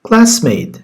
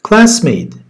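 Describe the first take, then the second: Both takes have the same delivery.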